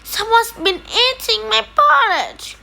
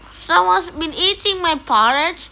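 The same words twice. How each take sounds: First: It is said in a tiny, small growl. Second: It is said in a medium growl.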